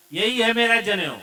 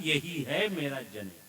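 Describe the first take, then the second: First: यही है मेरा जनेऊ, pushed higher and louder; emphatic declaration. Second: Said in the usual way. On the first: Acted. Son insists to his father, यही है मेरा जनेऊ said emphatically.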